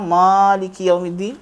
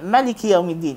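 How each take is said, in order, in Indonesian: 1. Vokal setelah konsonan pertama panjang. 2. Vokal setelah konsonan pertama pendek. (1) "ada yang baca mim panjang" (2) "Ada yang baca pendek"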